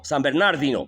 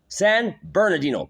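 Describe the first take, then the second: First: The name is said with a Spanish pronunciation. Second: The name is said with an English pronunciation. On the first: "That's in Espanol" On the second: "There's a San Bernardino in English"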